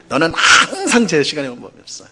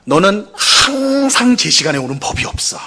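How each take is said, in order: First: 항상 said plainly with a falling close; mild reproach. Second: 항상 hit high and hard, accusing; accusing jab on 항상 at the start of the line; stress on 항상. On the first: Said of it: "뭐 이렇게 말하거나". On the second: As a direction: lean on 항상 like a blaming spouse. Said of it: "뭐라고 말을 해요?". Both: Shown as a demonstration.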